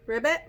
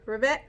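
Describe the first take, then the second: No difference in how they are said.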